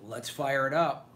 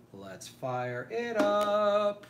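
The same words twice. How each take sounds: First: Said in the usual way. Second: Higher, slow, stretched-out hype call; drawn-out hype call. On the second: Acted. Hyping start of live stream.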